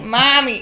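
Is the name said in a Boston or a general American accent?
Boston. It is said without the r sound.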